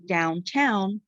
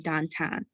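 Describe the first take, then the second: First: The 'ow' vowel glides as a diphthong. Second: The 'ow' vowel is a single steady vowel. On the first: This is the general pronunciation. "instead of saying downtown" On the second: This is how someone from Pittsburgh says it. "someone from Pittsburgh might say downtown"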